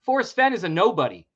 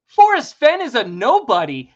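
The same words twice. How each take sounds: First: Said in the usual way. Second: Loud, forceful declaration; much louder, insistent statement; emphatic repeat. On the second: Real, not acted. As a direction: hammer it home louder. Repeats his claim for emphasis.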